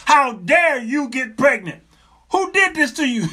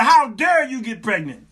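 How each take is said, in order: First: Hammed-up shouted scolding; mock outrage, emphatic. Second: Loud, high retold scolding; comic indignant shout at the wife; mock outrage. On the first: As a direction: punch out each word like an outraged husband. Retold scolding, repeated harder. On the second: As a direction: re-enact a husband's indignant accusation.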